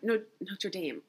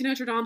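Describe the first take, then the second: First: The name is said with an English pronunciation. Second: The name is said with a French pronunciation. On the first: The speaker calls it wrong. "why am I saying it like that?" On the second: The speaker calls it right. "Come on, I speak French"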